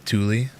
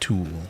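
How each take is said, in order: First: The word is said with two syllables. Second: The word is said as one syllable. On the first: The speaker calls it right. "It's pronounced Thule" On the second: The speaker calls it wrong. "I think I'm pronouncing that wrong"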